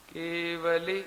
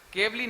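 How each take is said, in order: First: केवली in three clear syllables, ke-va-li, full v; correct pronunciation. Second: केवली clipped to kevli, the v half swallowed; wrong pronunciation. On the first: Teacher demonstrates the right Prakrit केवली, ke-va-li. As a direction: give केवली its whole middle va, ke-va-li. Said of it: "मैं उसका उच्चारण बोलता हूँ, सुनिए आप". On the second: Teacher shows disciples the wrong way to say केवली, kevli. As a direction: say केवली wrongly as two quick syllables, kev-li. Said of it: "केवली नहीं बोलिए". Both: Shown as a demonstration.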